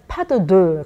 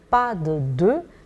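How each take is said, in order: First: It is said with a Korean pronunciation. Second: It is said with a French pronunciation.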